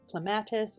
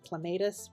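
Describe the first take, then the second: First: The word does not rhyme with tomatoes. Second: The word rhymes with tomatoes. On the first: This is how some people say it. "Some people uh, pronounce it as" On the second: This is how the speaker was taught to say it. "rhymes with tomatoes"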